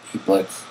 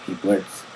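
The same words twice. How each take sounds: The two takes are said the same way.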